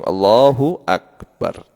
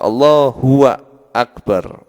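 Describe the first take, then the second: First: Both words run together without any pause. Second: A pause separates the two words. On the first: The speaker calls it right. "Tapi langsung Allahu Akbar" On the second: The speaker calls it wrong. "tidak boleh dipisah"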